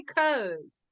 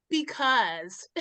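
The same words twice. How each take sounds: First: "'cause" clipped to one syllable; just say "'cause"; short 'cause. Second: "because" said lower and softer; full because. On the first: Arguing that everyone says "'cause". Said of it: "Everybody says "'cause". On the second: Complaining about having to say "because". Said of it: "Why can't I just say". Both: Shown as a demonstration.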